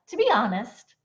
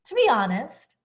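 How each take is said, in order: First: The words blend together in one breath. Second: The same.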